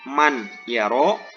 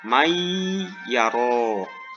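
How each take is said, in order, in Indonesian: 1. Bunyi n diucapkan dengan jelas sebelum y. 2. Bunyi n melebur sepenuhnya menjadi y ganda. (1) "tidak dibaca idhar man yaro" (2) "nun matinya dimasukkan ataupun dileburkan"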